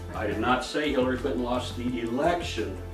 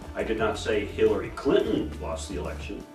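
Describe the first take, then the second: First: The word 'election' carries the main stress. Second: The word 'Hillary' carries the main stress. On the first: She lost something else. "What am I talking about? Something else" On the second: Someone else lost it for her. "maybe Hillary didn't lose it"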